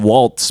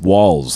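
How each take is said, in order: First: A t sound comes before the final s. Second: No t sound comes before the final s. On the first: This is how most people say the name. The speaker calls it wrong. "Everyone's saying Waltz" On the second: This matches the spelling of the name. The speaker calls it right. "but it's Walls, I believe"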